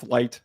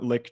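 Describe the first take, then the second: First: The name sounds like the word 'light'. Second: The name has a short vowel, like 'licked'. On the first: The speaker calls it right. "it's Light" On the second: The speaker calls it wrong. "It's not Licht"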